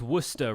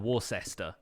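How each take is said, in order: First: It is pronounced the British way. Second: It is pronounced the American way. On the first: The speaker calls it right. "it's Worcester rather than" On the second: The speaker calls it wrong. "rather than Worcester"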